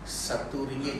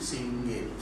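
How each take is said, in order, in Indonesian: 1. Frasa itu diucapkan secara lengkap. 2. Frasa itu disingkat menjadi satu kata. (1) "satu ringgit jadi singgit" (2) "Dia teringkat"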